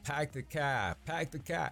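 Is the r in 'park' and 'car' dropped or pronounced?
dropped. The r sounds are dropped, Boston style. "But I don't say, like, pack the car"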